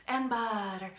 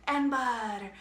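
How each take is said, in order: Both takes have the same delivery.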